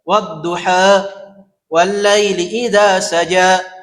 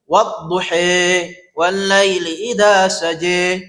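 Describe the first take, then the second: First: The final vowel of duha falls between a and e. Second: The final vowel of duha sounds like e. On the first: "Ada yang dibaca antara imalah dan fathah" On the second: "Imalah dibaca e"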